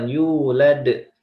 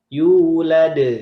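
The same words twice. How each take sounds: First: The first vowel is said short. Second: The first vowel is said long. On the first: The speaker calls it wrong. "bukan yulad" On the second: The speaker calls it right. "Yu-nya yang panjang"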